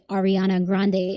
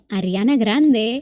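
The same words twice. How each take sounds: First: The R is flat, American English style. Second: The R is rolled, Spanish style.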